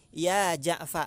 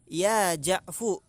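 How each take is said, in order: First: The name ends with an 'a' vowel. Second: The name ends with an 'u' vowel. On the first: The original vowel of the name is kept. "fa-nya dipatah. Maka bacanya ya Ja'fa" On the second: The shortened name is treated as a complete name. "domah fa-nya"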